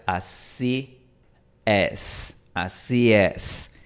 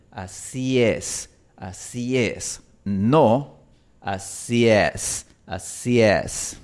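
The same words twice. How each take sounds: First: "así es" with an open English E, slowed; student's wrong vowel. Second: "así es" slow, with a mid Spanish E; correct Spanish E. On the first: Retold or imitated. Teacher imitating a student's mistake. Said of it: "Y él pronuncia". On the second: Shown as a demonstration. Teacher correcting a student's vowel. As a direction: drag out "así es" with the tongue held mid. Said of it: "no bajes tanto la lengua".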